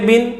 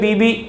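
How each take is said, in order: First: It is one syllable ending in an n sound. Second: The bi syllable is said twice with no n. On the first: The speaker calls it right. "ये उसका पढ़ने का तरीका है" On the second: The speaker calls it wrong. "दो बार बा को ज़ेर के साथ ... तो ये जो है गलत है"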